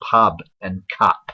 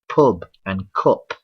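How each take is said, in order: First: The vowels are said with a southern English accent. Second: The vowels are said with a northern English accent. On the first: "south of uh, Birmingham it'd be" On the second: "in the north it would be"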